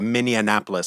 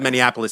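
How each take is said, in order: First: It is said like Indianapolis. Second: It is not said like Indianapolis. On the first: The speaker calls it wrong. "like Indianapolis" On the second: The speaker calls it right. "instead of Minneapolis"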